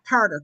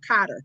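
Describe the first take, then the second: First: The first syllable has an R sound: Car. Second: The first syllable has no R sound: Cot. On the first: The speaker calls it wrong. "Not Carter" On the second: The speaker calls it right. "K O T T E R"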